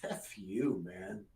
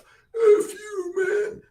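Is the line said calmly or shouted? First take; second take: calmly; shouted. First: It is said calmly, almost laughing. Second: It is shouted loudly.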